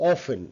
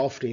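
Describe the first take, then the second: First: OFTEN with no t, as "aw-fun"; silent t. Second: OFTEN with the t sounded; common mistaken pronunciation. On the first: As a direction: drop the t in often. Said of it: "not often". (often-এর ট বাদ দিয়ে "অফেন") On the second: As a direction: say often as "of-ten". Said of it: "অনেকে often বলে". (often-এর ট উচ্চারণ করে "অফটেন") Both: Shown as a demonstration.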